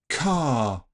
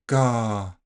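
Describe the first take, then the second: First: The first consonant has a puff of air. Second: The first consonant has no puff of air. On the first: "You should be able to hear that puff on the first version" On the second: "I didn't aspirate the second version"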